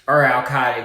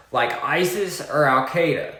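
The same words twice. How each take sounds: First: Al-Qaeda drawled in a southern accent. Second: Said in the usual way. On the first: Shown as a demonstration. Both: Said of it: "excuse my southern accent".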